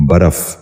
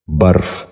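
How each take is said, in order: First: برف with an extra a between r and f, baraf; wrong pronunciation. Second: برف as one syllable, barf; correct pronunciation. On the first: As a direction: say برف in two syllables: baraf. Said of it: "یہ غلط تلفظ ہے". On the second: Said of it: "درست تلفظ ہے". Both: Shown as a demonstration.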